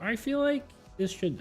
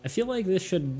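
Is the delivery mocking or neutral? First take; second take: mocking; neutral. First: It is said in a mocking put-on voice. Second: It is said in a plain normal voice. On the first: The speaker is poking fun at the people quoted. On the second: The speaker reports the feedback sincerely.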